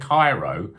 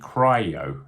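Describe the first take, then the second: First: It is said like the city name Cairo. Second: It is said like the start of cryogenic. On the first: The speaker calls it wrong. "I've been saying Cairo" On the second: The speaker calls it right. "but it's actually cryo, as in cryogenic"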